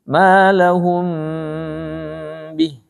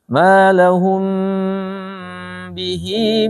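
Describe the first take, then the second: First: The pronoun ends abruptly on a consonant. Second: The pronoun ends on a lengthened vowel. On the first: The reading stops at this word. "Kalau berhenti" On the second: The reading continues on without stopping. "Bihinya panjang"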